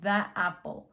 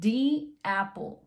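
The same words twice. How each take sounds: First: 'The' is said with a short 'uh' vowel. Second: 'The' is said with a long 'ee' vowel. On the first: The speaker calls it wrong. "no the apple" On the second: The speaker calls it right. "Entonces va a cambiar a the"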